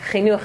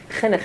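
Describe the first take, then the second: First: It uses a modern Israeli Hebrew pronunciation. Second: It uses an English-speakers' Hebrew pronunciation. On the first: "Chinuch is how you say it in Israeli Hebrew" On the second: "Chinuch is how you say it in English Hebrew"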